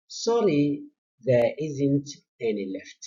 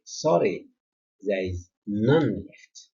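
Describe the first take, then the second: First: Said in the usual way. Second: Long, weighted "none" before "left"; emphatic NONE. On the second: Shown as a demonstration. Teacher showing students the firmer negative, emphatic "none". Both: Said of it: "this is more emphatic".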